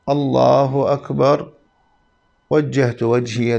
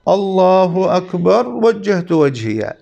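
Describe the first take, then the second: First: A short pause follows the first phrase. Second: The phrases run together without a pause. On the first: The speaker calls it right. "أن تكون هناك سكتة لطيفة بعد تكبيرة الإحرام ... يعني هكذا" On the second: The speaker calls it wrong. "خلاف السنة هو مباشرة أن يقول"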